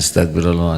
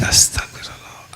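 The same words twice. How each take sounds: First: It is said casually, without feeling. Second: It is said earnestly, with deep feeling.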